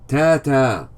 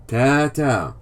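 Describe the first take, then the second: The two takes are said the same way.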